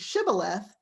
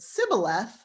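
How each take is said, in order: First: The word begins with a 'sh' sound. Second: The word begins with an 's' sound. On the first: The speaker is from Gilead. The speaker calls it right. "If he pronounces it Shibboleth, they let him pass" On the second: The speaker is from Ephraim. The speaker calls it wrong. "if he pronounces it Sibboleth, they know he's an Ephraimite"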